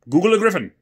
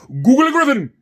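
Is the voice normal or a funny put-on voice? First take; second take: normal; funny. First: It is said in the speaker's normal voice. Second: It is said in a funny put-on voice.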